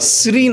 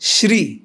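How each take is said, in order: First: The word starts with an s sound. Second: The word starts with an sh sound. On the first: The speaker calls it wrong. "শ্রী নয়" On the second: The speaker calls it right. "তালব্যস্য"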